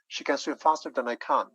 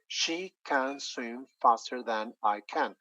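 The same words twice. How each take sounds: First: The words are linked with reduced weak words. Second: Every word gets the same stress. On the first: "the sentence will go like" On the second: "we're giving the same stress to each and every word"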